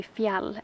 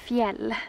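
First: Put-on fjall said as an Old Norse word; Old Norse pronunciation. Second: Fjäll said as a Swedish word; Swedish pronunciation. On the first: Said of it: "in Old Norse you say". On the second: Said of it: "in Swedish you call it". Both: Shown as a demonstration.

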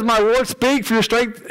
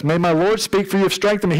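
First: My Lord speak rushed together too quickly; rushed reading. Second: Said in the usual way. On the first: Shown as a demonstration. Preacher reading Daniel's words to congregation, rushed. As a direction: hurry through the quote by mistake. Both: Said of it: "sorry, I said that too fast".

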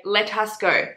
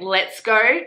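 First: "Let us go" with the contraction opened out; words uncontracted. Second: Said in the usual way. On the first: Shown as a demonstration. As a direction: say "Let us go" as separate words, "us" in full. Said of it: "wrote his accent". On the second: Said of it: "instead of saying".

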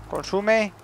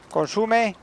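The two takes are said the same way.

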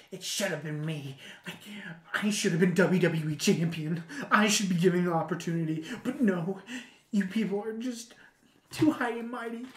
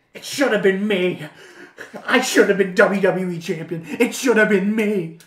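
First: Toned-down imitation of an aggrieved wrestler; mock grievance, held back from shouting; Dolph Ziggler. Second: Loud, hammed-up wrestler rant; Dolph Ziggler. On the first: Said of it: "his whole shtick was being". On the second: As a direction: shout it like an aggrieved wrestler, spitting the words. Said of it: "He's like".

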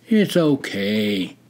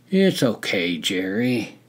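First: Slow, gentle "It's okay"; tender, unhurried comfort; soft and kind. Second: Lightly voiced gentle reassurance; a hint of kindness on "It's okay"; understated, friendly comfort; kind. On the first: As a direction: ease him down with a slow, soft reassurance. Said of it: "Hawk repeated softly". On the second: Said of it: "Hawk was kind". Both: A narrator's reading.

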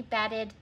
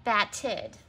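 First: Said in the usual way. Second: BATTED in two careful, separated syllables. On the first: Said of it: "Say the new word". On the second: Shown as a demonstration. Teacher says the new word, BATTED in clear syllables. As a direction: sound out BATTED as bat-ted. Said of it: "change the last syllable".

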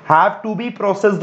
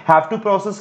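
First: "Have to be processed" said slowly and clearly; corrected phrase, measured. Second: Said in the usual way. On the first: Shown as a demonstration. Teacher corrects students' grammar, "Have to be processed" slow and clear. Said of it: "की जगह क्या होना चाहिए". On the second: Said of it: "have to process लिखा हुआ है वो बच्चे रॉन्ग".

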